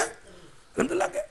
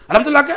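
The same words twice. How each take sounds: First: "الحمدللہ کیا؟" pitched much higher and much softer, rising at the end; a mocking, nagging echo of the question; mock scolding. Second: A blunt, bossy "الحمدللہ کیا؟" as a quick question; curt demand. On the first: Father nagging his son, mock scolding in a high voice. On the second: Retold or imitated. Father bluntly demanding his son, curt and bossy. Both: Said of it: "جیسے ہم کہتے ہیں اپنے بیٹے".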